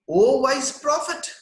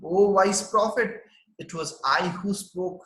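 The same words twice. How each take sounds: First: Raised higher and slower, a light mock squeak; squeaky baby voice. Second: Said in the usual way. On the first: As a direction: voice the newborn prince, a little high and drawn out. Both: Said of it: "uttered these words in a squeaky voice".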